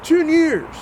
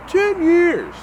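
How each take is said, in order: First: "ten years" drawn out slowly and much higher; "ten years" said slowly and high, in shock; stressed in disbelief. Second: "Ten years" punched much higher and louder; "Ten years" hit high and loud, in outrage; emphatic repeat. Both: Real, not acted. Repeating the shocking sentence.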